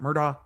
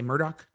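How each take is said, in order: First: The name ends with a 'daw' sound. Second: The name ends with a 'dock' sound. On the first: The speaker calls it wrong. "not Murdaugh" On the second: The speaker calls it right. "I'm trying to train my brain to say Murdoch"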